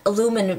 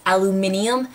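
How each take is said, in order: First: Said in the usual way. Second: "aluminium" with an extra i syllable; British pronunciation. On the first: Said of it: "to me, it's aluminum". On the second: Shown as a demonstration. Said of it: "Over here, aluminum is pronounced aluminium".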